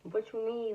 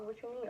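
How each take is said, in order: First: It is said in a happy, excited tone. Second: It is said in a flat, unimpressed tone.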